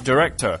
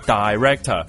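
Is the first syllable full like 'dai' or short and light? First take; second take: short and light; full dai. First: The first syllable is short and light. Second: The first syllable is a full 'dai' sound. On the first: The speaker calls it right. "你是director" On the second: The speaker calls it wrong. "你不是director"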